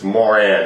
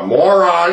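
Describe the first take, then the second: First: The name sounds like Moran, ending in -ran. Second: The name sounds like the word moron. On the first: The speaker calls it right. "it's Moran actually" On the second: The speaker calls it wrong. "I know I'm pronouncing the name wrong"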